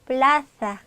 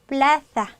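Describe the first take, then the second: First: It is said with the Spain Spanish accent. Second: It is said with the Spain Spanish accent.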